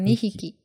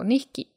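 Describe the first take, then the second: First: The first sound of hiki is clearly pronounced. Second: The first sound of hiki is barely heard. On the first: The speaker calls it wrong. "instead of" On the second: The speaker calls it right. "the 引 kind of disappears too"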